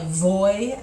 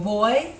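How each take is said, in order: First: It begins with a buzzing English v sound. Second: It begins with a soft sound between b and v. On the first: The speaker calls it wrong. "it kind of doesn't have a v sound like voy, like we do in, in Span on English for our V's" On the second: The speaker calls it right. "This is a cross between a B and a V"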